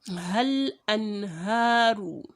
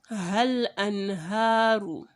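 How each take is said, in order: Both takes have the same delivery.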